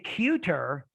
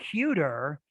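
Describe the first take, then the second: First: The middle consonant is a clear T sound. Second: The middle consonant is a soft D-like flap. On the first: "if you say cuter, you want to transcribe it with a T" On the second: "the flap is kind of like in between the T and the D. It's a soft D"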